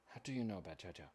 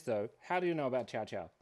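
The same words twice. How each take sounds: First: Quiet repeat. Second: Said in the usual way. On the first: Real, not acted. Musing to herself over the chat's question, softly. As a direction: echo the question softly, under the breath.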